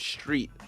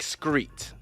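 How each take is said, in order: First: The word begins with an st sound. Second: The word begins with an sk sound. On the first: "I used to also pronounce street" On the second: "like screet"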